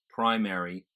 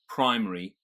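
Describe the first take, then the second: First: The word is said with an extra syllable. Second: The word is said with fewer syllables. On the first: "they get an extra syllable" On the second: "we would pronounce as three syllables"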